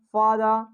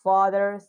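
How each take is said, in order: First: "father" with British dropped R; British accent. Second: "father" with an American R; American accent. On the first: Teacher shows students the dropped R, British accent. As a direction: end "father" without its R, British style. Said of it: "If we'll talk about British". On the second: Teacher lists examples for students, American accent. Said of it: "I'm speaking in American accent". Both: Shown as a demonstration.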